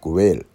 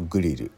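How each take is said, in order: First: It is said with an English-style pronunciation. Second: It is said with Japanese katakana-style pronunciation.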